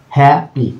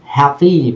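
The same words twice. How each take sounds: First: "হ্যাপি" broken into "হ্যা" and "পি"; split into syllables. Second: "হ্যাপি" slowly, the last "ই" drawn out; long final ee. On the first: Teacher showing two small parts of a word, split syllables. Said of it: "হ্যাঁ একটা অংশ". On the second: Teacher showing the long Y ending, long final ee. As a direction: hold the ee at the end of "হ্যাপি". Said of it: "দীর্ঘ ই". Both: Shown as a demonstration.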